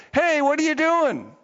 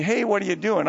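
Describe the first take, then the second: First: High, louder donkey outburst; indignant donkey. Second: Said in the usual way. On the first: Acted. Donkey confronts the master beating it, indignant. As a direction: protest loudly as the beaten donkey. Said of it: "then the donkey says". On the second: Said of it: "if a donkey said to me".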